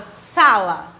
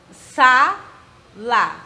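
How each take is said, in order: First: Said in the usual way. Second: "sa-la" split in two, SA loud and stressed; syllable by syllable. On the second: Shown as a demonstration. Teacher showing the class the tonic syllable, "sa-la" broken up with a strong SA. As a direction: break "sa-la" into separate beats, punching "sa". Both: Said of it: "O sa é uma sílaba tônica".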